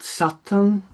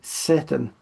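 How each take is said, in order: First: Satan is said with the older original pronunciation. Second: Satan is said with the ordinary English pronunciation. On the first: The name keeps its source-language sound. "in the original pronunciation" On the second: The name follows normal English word patterns. "pronounced according to its own idiom"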